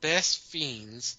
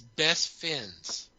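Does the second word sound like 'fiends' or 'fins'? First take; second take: fiends; fins. First: The second word is said as 'fiends'. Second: The second word is said as 'fins'. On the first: The speaker calls it right. "The game is called Best Fiends" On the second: The speaker calls it wrong. "She says Best Fins. It's like she can't see the I"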